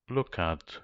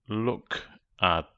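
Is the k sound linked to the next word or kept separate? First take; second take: linked; separate. First: The k moves forward onto the second word. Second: The k ends the first word, unlinked.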